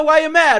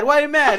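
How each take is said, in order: First: High, loud mocking taunt. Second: Repeated high, loud taunt. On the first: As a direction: yell the question mockingly. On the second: Retold or imitated. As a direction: shout it once more mockingly. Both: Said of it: "and goes".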